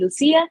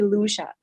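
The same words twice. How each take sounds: First: The name is pronounced the Spanish way. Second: The name is pronounced the American way. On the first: "Spanish people or South Americans and Latinos who pronounce it" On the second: "in the United States, people call me"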